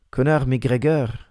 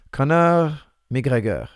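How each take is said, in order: First: Slow, Conor McGregor as kon-AR mee-GREH-gair with throaty French r's; Parisian French. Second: Slow, Conor McGregor as KON-ahm ee-GEH-guh, the r's swallowed; Quebec French. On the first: Coach tries the name in French for a fan. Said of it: "that would be too Parisian". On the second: Coach answers a fan's request in Quebec French. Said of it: "That's how they would say it". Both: Shown as a demonstration.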